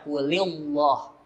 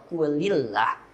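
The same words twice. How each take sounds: First: The L in Allah is thick and heavy. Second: The L in Allah is thin and light. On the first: The speaker calls it wrong. "ini salah, memaksakan diri" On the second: The speaker calls it right. "yang benar kuli kemudian Allah"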